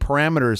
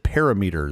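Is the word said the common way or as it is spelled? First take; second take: common way; as spelled. First: The word is said the common spoken way. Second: The word is said the way it is spelled. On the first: The speaker calls it right. "Instead of saying parameters" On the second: The speaker calls it wrong. "I said parameters. ... Because that's what it looks like"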